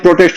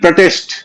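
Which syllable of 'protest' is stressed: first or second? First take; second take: first; second. First: The stress is on the first syllable. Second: The stress is on the second syllable. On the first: It is used as a noun. "Noun है" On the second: It is used as a verb. "I will protest"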